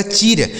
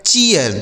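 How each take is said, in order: First: "चीर" as one syllable with a long ee; long EE misreading. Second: "चीयर" in two parts, chi-yar; EE-YA glide. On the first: Teacher shows a child's wrong reading, "चीर" with long ee. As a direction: say "चीर" with plain long ee, no glide. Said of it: "double ई का उच्चारण बड़ी की मात्रा". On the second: Teacher reads out the built-up word, "चीयर" as chi-yar. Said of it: "इस double ई का उच्चारण ई हो गया". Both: Shown as a demonstration.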